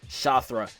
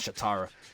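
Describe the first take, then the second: First: The name has a 'th' sound, no extra vowel. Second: The name has a 't' sound and an extra vowel. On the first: The speaker calls it right. "Shathra, not Shatara" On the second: The speaker calls it wrong. "not Shatara"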